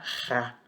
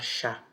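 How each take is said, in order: First: The syllable starts with a throaty h sound. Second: The syllable starts with a sh sound. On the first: The speaker calls it right. "Você vai falar ra" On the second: The speaker calls it wrong. "Você não vai falar, você não vai colocar um A aqui e você vai falar chá"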